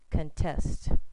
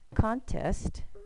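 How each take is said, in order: First: The stress is on the second syllable. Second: The stress is on the first syllable. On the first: The word is a verb. "if it's the verb, contest" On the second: The word is a noun. "the first one would be contest"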